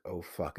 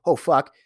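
First: Low, much softer, sinking curse; dread. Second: Sudden loud alarmed oath, louder; startled curse. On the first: Owner seeing his dog's back legs fail, hushed dread. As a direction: say it as the bad news lands. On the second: Owner startled by his dog's yelp, loud alarmed curse. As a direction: blurt it out in shock. Dog yelps in pain suddenly. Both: Retold or imitated.

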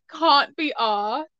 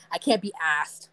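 First: Slow British long "ah" in "can't" and "asked"; imitated British pronunciation. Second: "asked" with a short American a, as in cat; lower, American-style "asked"; American pronunciation. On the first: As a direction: mimic a British accent, dragged out slowly. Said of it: "also, the way you said". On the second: Shown as a demonstration. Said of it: "you can't say in English".

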